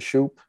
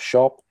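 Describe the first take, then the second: First: The vowel is long, like in 'hoop'. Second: The vowel is short, like in 'hop'. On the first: This is the speaker's own way of saying the name. "the Shoop dog, Aaron Shoop" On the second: This is how the player says his own name. "I think he calls himself Shop"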